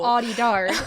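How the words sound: The name is said with an American accent. The speaker calls it wrong. "that was said with the most American accent"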